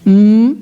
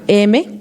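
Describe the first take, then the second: First: Only the letter's bare sound is produced. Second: The letter is said by its full name. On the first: The speaker calls it right. "si le enseño la, el sonido de la letra" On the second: The speaker calls it wrong. "le estoy diciendo el nombre de la letra"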